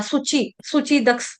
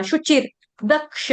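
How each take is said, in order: First: सुचि दक्ष with a plain dental s sound, the wrong way; common mistake. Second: शुचिर दक्ष with a clear palatal sh, as in शरबत; correct sh sound. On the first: Teacher showing students the wrong s sound. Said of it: "इस्तेमाल कर देते हैं सब्जी वाला". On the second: Teacher giving students the correct sh pronunciation. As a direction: say शुचिर with श, not स. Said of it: "शरबत वाला श". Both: Shown as a demonstration.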